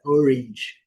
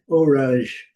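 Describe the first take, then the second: First: Orange said OR-inge. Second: Orange said or-AHNGE, with a full A; A as A, mistaken. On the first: Teacher corrects the common mistake, A as I. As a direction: say orange with a short i in place of the A. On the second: Teacher shows the common mistake, A as A. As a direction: wrongly say orange with an open a. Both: Shown as a demonstration. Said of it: "O A aqui não é".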